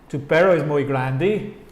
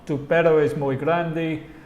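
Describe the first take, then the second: First: The voice rises at the end, a question. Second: The voice falls at the end, a statement.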